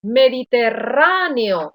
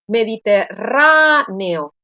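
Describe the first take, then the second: First: Mediterráneo said slowly with a long stressed RÁ. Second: Mediterráneo broken up slowly, RÁ set apart and held; stress on isolated RÁ. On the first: Teacher drawing attention to this word, stressed RÁ in Mediterráneo. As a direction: lean on RÁ in Mediterráneo. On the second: Teacher showing which A takes the tilde, RÁ isolated in Mediterráneo. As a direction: split Mediterráneo around a long, strong RÁ. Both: Shown as a demonstration. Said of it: "lleva tilde la A".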